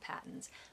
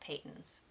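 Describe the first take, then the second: First: The first vowel sounds like in 'hat'. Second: The first vowel sounds like in 'hate'. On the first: The speaker calls it wrong. "not Patton's" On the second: The speaker calls it right. "it's pronounced Peyton's"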